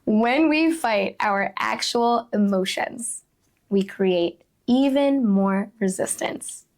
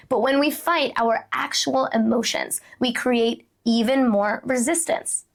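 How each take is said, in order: First: Slow emphatic repeat. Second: Said in the usual way. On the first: Real, not acted. Speaker repeating the key point to listeners, slow and deliberate. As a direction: let each phrase land slowly.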